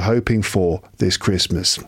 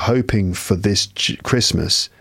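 First: The word 'for' is said in full. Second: The word 'for' is weak and reduced. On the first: The speaker calls it right. "It should be" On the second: The speaker calls it wrong. "It shouldn't be"

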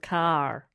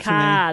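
First: The final R is clearly pronounced. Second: The final R is soft, almost dropped. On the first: "instead of" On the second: "It's like a softer R"

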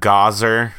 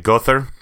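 First: The name is said in a Texan accent. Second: The name is said in an Andalusian accent. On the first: "you've got Gozer for your Texans" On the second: "your Andalusian, where they say Gother"

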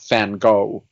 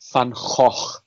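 First: Van Gogh is said with the American pronunciation. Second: Van Gogh is said with the Dutch pronunciation. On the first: The speaker calls it wrong. "And not Van Gogh" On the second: The speaker calls it right. "It's Gouda and it's Van Gogh"

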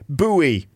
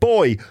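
First: The word is said as two syllables, 'boo-ee'. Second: The word is said as one syllable, 'boy'.

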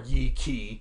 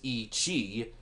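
First: The second word starts with a 'k' sound. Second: The second word starts with a 'ch' sound. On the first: "us dumb Americans pronounce it" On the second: "Its full scientific name is"

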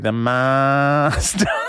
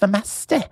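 First: It is said in a drawn-out Australian accent. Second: It is said in a regional British accent. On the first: "if it was an Australian doctor... Really drag it out" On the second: "now everyone's got regional dialects"

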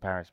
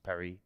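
First: It is said with an English accent. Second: It is said with a French accent.

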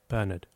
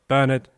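First: The word is said softly. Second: The word is said loudly.

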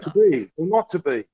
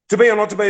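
First: The line is read slowly, with nuance. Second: The line is read quickly, without nuance. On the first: The flavor of the line comes through. The speaker calls it right. "But no. If you go" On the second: The nuance of the line is lost. The speaker calls it wrong. "if I was reading it like this"

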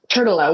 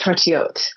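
First: The name is said with an American pronunciation. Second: The name is said with a French pronunciation. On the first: It is the everyday family pronunciation. The speaker calls it wrong. "we pronounce it in a butchered American way" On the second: It can sound pretentious in America. The speaker calls it right. "the correct French pronunciation is Tortelotte"

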